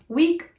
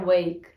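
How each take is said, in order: First: The word has the English pronunciation. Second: The word has the Dutch pronunciation. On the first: "the pronunciation is different" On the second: "wake is the Dutch word"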